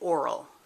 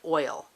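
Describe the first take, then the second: First: The word is said in a regional way. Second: The word is said in the standard way. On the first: The speaker calls it wrong. "They say oral" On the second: The speaker calls it right. "could not say oil"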